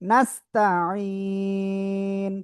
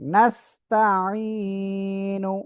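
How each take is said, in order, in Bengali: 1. শব্দটি স্বরবর্ণ ছাড়া কেটে ছোট হয়ে শেষ হয়। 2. শব্দটি পূর্ণ -nu সমাপ্তি দিয়ে শেষ হয়।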